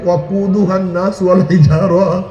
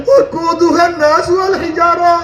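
First: Said in the usual way. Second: High, wailing verse, retold as a weeping stone; tearful recitation. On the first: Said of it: "জাহান্নামের ভয় আমি কান্নাকাটি". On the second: Weeping stone tells Musa its fear of hellfire, tearful chanting. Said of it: "আমি কান্নাকাটি করতে আছি".

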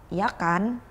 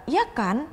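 First: "ya kan" kept down, seeking agreement; falling intonation. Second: "ya kan" lifted higher, checking; rising intonation. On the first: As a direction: say "ya kan" as a settled tag, going down. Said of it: "jadi intonasinya turun". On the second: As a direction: pitch "ya kan" up as a real question. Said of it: "the intonation's going up". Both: Shown as a demonstration.

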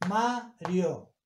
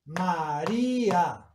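First: "Mario" as two beats, MA-rio; diphthong. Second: "María" slowly as ma-RÍ-a, í stretched; hiatus. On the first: Teacher contrasting diphthong with hiatus, syllable by syllable. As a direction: split "Mario" after MA, keep rio as one syllable. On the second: Teacher contrasting hiatus with diphthong, drawn-out syllables. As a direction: draw out a separate í in "María". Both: Shown as a demonstration.

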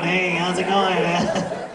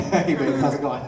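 First: A raspy clown greeting; Krusty the Clown. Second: Suave, easy greeting to the wife; smooth Lupin voice. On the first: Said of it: "I sound like the clown on". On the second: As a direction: lay on the charm, easygoing. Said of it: "talking a little bit more smooth". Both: Retold or imitated.

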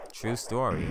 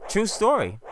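First: Said in the usual way. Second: High loud proud insistence; high emphatic declaration. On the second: Shown as a demonstration. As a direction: sell it big.

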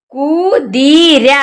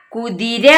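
First: കുതിര drawn out very slowly, syllable by syllable; slow demo. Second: Said in the usual way. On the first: Shown as a demonstration. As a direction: stretch കുതിര slowly so the children follow. (കുതിര വളരെ പതുക്കെ, അക്ഷരം അക്ഷരമായി) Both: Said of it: "എന്താ വായിക്കുക?".

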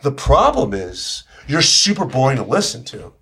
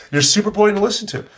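First: Said in the usual way. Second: Higher, punchier take on boring; animated higher retelling; lively repeat. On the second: Shown as a demonstration. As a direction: lift it with energy.

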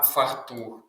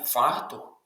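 First: «фартух» с ударением на «тух», фарТУХ; медленно выдели последний слог в слове «фартух»; ударение на второй слог. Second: «фартух» с ударением на первый слог, ФАртух; медленно выдели первый слог в слове «фартух»; неверное ударение. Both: Shown as a demonstration. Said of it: "Наголос на другий склад".

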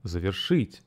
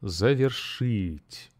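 First: Завершить with stress on шить and a rising end; stress on last syllable, rising. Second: Завершить slow, with the stress on шить; stress on last syllable. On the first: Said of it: "Listen again". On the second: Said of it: "the stress falls on the last syllable". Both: Shown as a demonstration.

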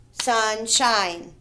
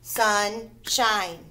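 First: Said in the usual way. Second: "Sunshine" as sun, pause, shine; split at syllable break. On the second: Shown as a demonstration. Teacher separating the syllables, "Sunshine" in two parts. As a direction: leave a clear gap between sun and shine. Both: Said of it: "How do I separate the syllables?".

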